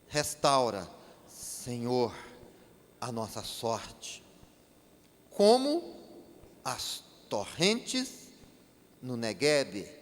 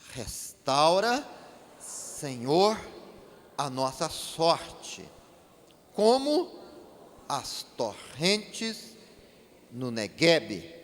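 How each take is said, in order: First: It is read in a plain, moderate voice. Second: It is read with more force and emphasis.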